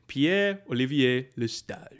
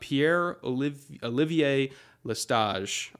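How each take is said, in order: First: The name is said with a French accent. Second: The name is said with an English accent.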